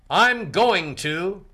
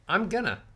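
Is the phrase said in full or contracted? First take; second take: full; contracted. First: Going to is said fully as two words. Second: Going to is reduced to gonna. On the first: It sounds formal. The speaker calls it wrong. "Instead of saying" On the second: It sounds casual. The speaker calls it right.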